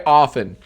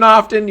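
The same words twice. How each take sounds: First: "often" with a silent T, offen. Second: "often" with the T sounded, off-ten; T pronounced. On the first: Streamer showing the other pronunciation, "often" without any T. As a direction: say "often" as OFF-en, dropping the T. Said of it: "the T in often is not pronounced". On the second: Streamer explaining pronunciation, "often" with an audible T. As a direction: say "often" as OFF-TEN, T clearly released. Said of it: "you can pronounce the T in often". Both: Shown as a demonstration.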